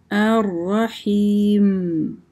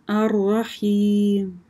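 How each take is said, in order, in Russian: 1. Финальное «м» произносится отчетливо. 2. Финальное «м» пропадает и почти не слышно. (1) "мы мим произносим, не сокращаем" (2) "последние буквы просто пропадают"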